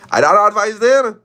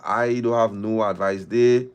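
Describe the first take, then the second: First: Mock loud catchphrase. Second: Said in the usual way. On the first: Repeating a catchphrase mockingly.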